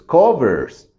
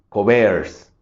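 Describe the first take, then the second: First: The stress is on the first syllable. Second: The stress is on the second syllable. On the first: The speaker calls it right. "realmente la más fuerte es co" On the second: The speaker calls it wrong. "si yo marcara y dijera que esta es la más fuerte"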